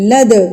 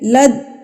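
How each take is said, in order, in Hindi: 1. अंतिम d गूँजती हुई वापसी के साथ उछलता है। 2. अंतिम d बिना किसी उछाल के काट दिया जाता है। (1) "दाल को हिला के पढ़ेंगे" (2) "आवाज को रोकना नहीं है, लद गलत है"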